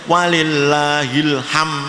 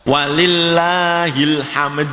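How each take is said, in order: First: The final d sound is dropped. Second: The final d sound is clearly pronounced.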